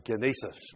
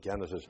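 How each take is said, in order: First: It is pronounced the Greek way. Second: It is pronounced the English way. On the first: "or genesis" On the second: "I say genesis to give it an English pronunciation"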